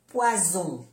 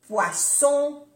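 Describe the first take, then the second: First: "poison" with a voiced z, falling; Z sound. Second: "Poisson" high and loud, with an unvoiced s; double S. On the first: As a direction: say French "poison" with a buzzing z. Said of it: "se pronuncia como una Z". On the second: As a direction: punch "Poisson" with a hissed s. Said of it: "Las dos S". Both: Shown as a demonstration.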